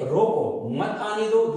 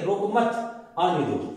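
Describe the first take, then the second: First: روکو on its own, pause, then مت آنے دو together; pause after روکو. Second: روکو مت together, pause, then آنے دو; pause after مت. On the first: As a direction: break the phrase right after روکو. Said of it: "اس کا ایک مطلب تو یہ ہے". (روکو کے بعد وقفہ) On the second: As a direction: break the phrase right after مت. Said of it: "دوسرا مطلب". (مت کے بعد وقفہ) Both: Shown as a demonstration.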